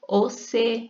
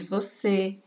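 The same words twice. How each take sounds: First: It is said with a rural regional pronunciation. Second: It is said in the standard form. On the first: This is how a country speaker says it. "Você em vez de" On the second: This is the usual form. "em vez de você"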